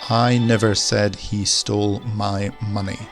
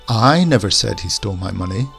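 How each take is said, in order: First: No single word carries special stress. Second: The first word carries strong stress. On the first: "with no emphasis" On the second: "we'll put the emphasis on the I"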